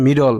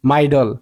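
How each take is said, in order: First: "মিডল" with a short "mi" in the first syllable; correct short vowel. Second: "মাইডল" with a long "mai" vowel, rhyming with idle; wrong long vowel. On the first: Teacher correcting middle for learners, with a short i. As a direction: say "মিডল", keeping the i short as in mid. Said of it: "কিন্তু এটা উচ্চারণ তো হচ্ছে". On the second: Teacher showing middle with one d, mispronounced with a long i. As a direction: say "মাইডল", opening the first syllable as "my". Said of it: "একটা D না দেয় তাহলে উচ্চারণ হয়". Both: Shown as a demonstration.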